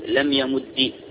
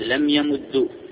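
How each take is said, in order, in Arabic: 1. ينتهي الفعل بكسرة قصيرة. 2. ينتهي الفعل بضمة قصيرة.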